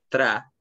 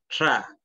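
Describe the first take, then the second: First: The tr is a plain Spanish-like tr. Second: The tr is a blend of sh and r. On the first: The speaker calls it wrong. "No es tra" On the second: The speaker calls it right. "es como una mezcla, ¿cierto?, entre una X y una R"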